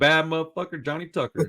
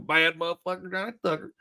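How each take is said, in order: First: It is said in his normal voice. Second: It is said in a redneck accent.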